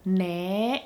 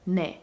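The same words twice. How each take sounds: First: The word is drawn out long. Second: The word is said short and clipped.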